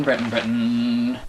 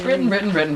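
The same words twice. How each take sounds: First: "Britain, Britain" lower and slow, deflating; dejected fade. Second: "Britain, Britain, Britain" chanted higher; mock rally. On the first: Acted. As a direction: let "Britain, Britain" sag slowly in defeat. Chant sinking in defeat. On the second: Britain voiced, chanting back.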